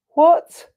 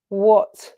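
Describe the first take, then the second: First: High, loud rising "What?"; incredulous, pitch leaping up; amazed disbelief. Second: Said in the usual way. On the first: Real, not acted. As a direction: exclaim "What?" in astonishment, pitched up. Amazed repeat, higher and louder.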